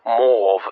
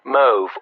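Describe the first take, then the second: First: The word has an older, original pronunciation. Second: The word has its usual present-day pronunciation.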